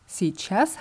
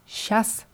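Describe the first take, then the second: First: All syllables are pronounced clearly and fully. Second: The word is shortened, with syllables dropped. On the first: This is the careful, standard pronunciation. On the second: This is the casual, everyday pronunciation.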